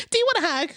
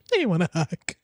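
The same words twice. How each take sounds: First: High mock sweet offer; mocking the cokehead girl. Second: Said in the usual way. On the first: Streamer mocking the guest offering a hug, high sweet voice. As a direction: chirp it up high like a spaced-out friend. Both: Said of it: "Cokeheads always trying to give you hugs".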